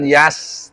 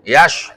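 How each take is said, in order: First: The word ends with an 's' sound. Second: The word ends with an 'sh' sound. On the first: The speaker calls it wrong. "bukan yas" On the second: The speaker calls it right. "Yash itu shin sukun"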